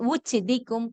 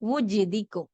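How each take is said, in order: First: The consonant is a voiceless ch sound. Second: The consonant is a voiced j sound. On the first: The speaker calls it wrong. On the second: The speaker calls it right.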